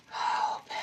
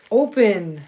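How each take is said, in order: First: A breathless whisper at the bag; whispered to the stuck bag; whispered plea. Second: A louder, sharp order to the bag; barked at a stuck bag; frustrated command. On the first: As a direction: beg it under your breath. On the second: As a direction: force it open with your voice. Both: Real, not acted. Fighting to open a bag.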